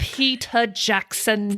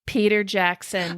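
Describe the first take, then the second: First: Put-on slow Kiwi accent on Peter Jackson; New Zealand accent. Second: Put-on New Zealand accent. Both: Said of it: "that's a good New Zealand accent".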